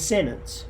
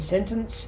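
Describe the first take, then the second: First: The T sound in the middle is dropped. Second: The T sound in the middle is pronounced.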